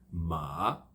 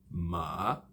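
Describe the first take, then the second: Both takes have the same delivery.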